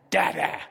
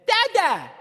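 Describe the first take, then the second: First: Said in the usual way. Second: Put-on high, loud babyish "Dada"; a grown man saying "Dada" like a toddler; mock grown son. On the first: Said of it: "Talking like that?". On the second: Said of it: "walks up to me today and says".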